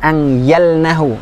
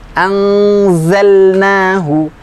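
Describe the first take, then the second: First: The consonant after 'an' is a y sound. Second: The consonant after 'an' is a clear z sound. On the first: The speaker calls it wrong. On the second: The speaker calls it right.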